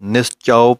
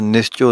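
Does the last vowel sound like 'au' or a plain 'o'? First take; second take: au; plain o. First: The last vowel is a full 'au' sound. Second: The last vowel is a plain 'o' sound. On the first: The speaker calls it right. "ਘਨੌੜੇ ਦੀ ਆਵਾਜ਼ ਆਉਣੀ ਚਾਹੀਦੀ ਹੈ" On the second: The speaker calls it wrong. "ਨਹੀਂ ਕਹਿਣਾ"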